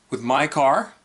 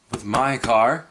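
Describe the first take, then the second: First: Said in the usual way. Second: Robotic navigation voice; GPS voice. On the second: Shown as a demonstration. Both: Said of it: "I'm talking like a GPS".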